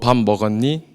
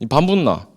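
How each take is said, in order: First: It is spoken in standard Seoul Korean. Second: It is spoken in the Busan dialect. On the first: "이렇게 연습을 하는데요" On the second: "부산 사람은 말이 이제 밥을 먹었냐라는 말을 밥 묻나?"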